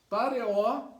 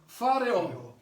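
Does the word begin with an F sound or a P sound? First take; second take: P; F. First: The word begins with a p sound. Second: The word begins with an f sound. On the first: The speaker calls it wrong. "eu vou ler pareó" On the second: The speaker calls it right. "tem um ponto aqui, fica fe, fa"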